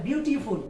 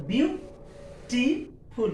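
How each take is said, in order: First: Said in the usual way. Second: "ब्यूटीफुल" slowly split into three beats with pauses; syllable by syllable. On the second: Shown as a demonstration. ("ब्यूटीफुल" को धीरे-धीरे तीन हिस्सों में तोड़कर बोलें) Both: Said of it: "तीन syllable है".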